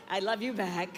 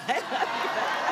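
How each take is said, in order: First: Said in the usual way. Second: Laughing. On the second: Real, not acted. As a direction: laugh it out warmly. Laughing reply to the crowd.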